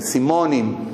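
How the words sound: The word is said with a Yemenite-style vowel. This is how the immigrants themselves say it. "סימונים, הם אומרים"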